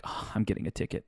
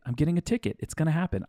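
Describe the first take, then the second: First: Whispered dread; panicked whisper. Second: Higher, mock-panicked; freaking out. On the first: Retold or imitated. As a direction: breathe it in quiet panic. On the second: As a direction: let the panic jump up in pitch. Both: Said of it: "I'm freaking out".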